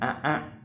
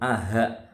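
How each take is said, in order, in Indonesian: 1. Vokal kedua diawali hentian glotis penuh. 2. Vokal kedua diawali bunyi h yang jelas. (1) "bukan a'a" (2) "atau aha"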